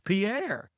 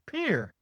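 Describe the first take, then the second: First: The name does not sound like 'peer'. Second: The name sounds like the word 'peer'. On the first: This is how it was taught in school. "we learned that as Pierre" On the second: This is how local people say it. "they pronounce that as Pierre. P E E R"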